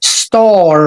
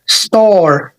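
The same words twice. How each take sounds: First: Star with no R sound, long ah; British star, R silent. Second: Star with the R sounded at the end; American star, R pronounced. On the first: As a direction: say star as stah, dropping the R. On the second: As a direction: say star with a clear final R. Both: Shown as a demonstration. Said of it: "لازم تركز على الصوت المتحرك".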